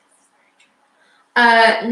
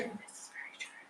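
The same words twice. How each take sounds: First: Drawn out slowly, leaning on "very"; slow and weighty, stressing "very"; slow emphatic. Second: Breathy whisper, no voice. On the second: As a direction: whisper it like a secret. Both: Pretend. Repeating line in different voices.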